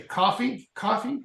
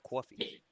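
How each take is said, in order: First: COFFEE with an open "cah" vowel, questioning; trying normal pronunciation. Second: COFFEE with a rounded "caw-fee" vowel; accented coffee. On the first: Real, not acted. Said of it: "Trying to say it normal". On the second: Retold or imitated. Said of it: "You gotta say coffee".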